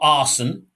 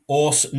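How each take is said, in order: First: The first vowel sounds like 'ar'. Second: The first vowel sounds like 'or'. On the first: The speaker calls it wrong. "not Arson" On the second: The speaker calls it right. "Orson, not Arson"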